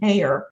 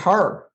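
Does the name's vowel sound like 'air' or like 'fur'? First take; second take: air; fur. First: The name rhymes with the word air. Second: The name rhymes with the word fur. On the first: The speaker calls it wrong. "I would never pronounce my he- my my my last name Hare" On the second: The speaker calls it right. "I would pronounce it her"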